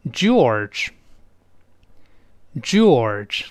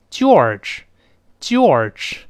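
First: George begun with a retroflex zh, slowly; correct George. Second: George begun with a thin "jee" sound; mispronounced George. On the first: Teacher has learners repeat after him, George slow with zh onset. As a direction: model George with a rounded "j" and curled r, long pauses. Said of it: "所以跟老师大声读起来". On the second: Teacher mimics learners misreading the name, George with a "jee" onset. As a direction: say George wrongly as "jee-orge", drawn out. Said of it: "很多人是这么读，把它读成". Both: Shown as a demonstration.

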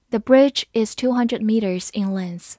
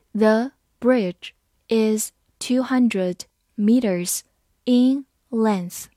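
First: Said in the usual way. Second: Slow and deliberate, each word apart; slow reading. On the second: Shown as a demonstration. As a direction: read slowly for learners. (慢慢地读) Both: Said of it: "好，慢慢读".

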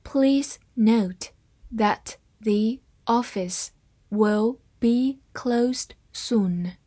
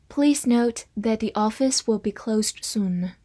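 First: Very slow, phrase by phrase, fading to a whisper; slowed-down model sentence; slow reading. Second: Said in the usual way. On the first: Shown as a demonstration. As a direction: read it slowly, chunk by chunk. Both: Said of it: "我们慢读一遍".

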